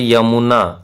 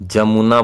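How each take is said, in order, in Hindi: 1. यह शब्द y की आवाज़ से शुरू होता है। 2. यह शब्द j की आवाज़ से शुरू होता है।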